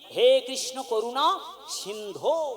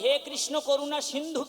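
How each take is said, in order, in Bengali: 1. শেষ শব্দটি 'o' স্বরধ্বনি দিয়ে শেষ হয়েছে। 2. শেষ শব্দটি 'u' স্বরধ্বনি দিয়ে শেষ হয়েছে। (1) "দন্তান্বয় ধয় ওকা, এটা হলো সম্বোধন পদ" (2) "কখনোই ... কিন্তু নয়"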